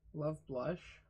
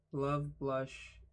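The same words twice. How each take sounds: First: Love, blush with a rising question at the end. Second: Said in the usual way. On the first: Shown as a demonstration. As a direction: doubtfully test love, blush, lifting blush. Doubts that the words rhyme.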